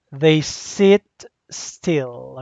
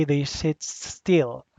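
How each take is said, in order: First: Said in the usual way. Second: Each word slow and deliberate, They leaned on; slow it right down: They sit still; slow, stressed repeat. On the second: Shown as a demonstration. Teacher repeating for the class, slow and deliberate.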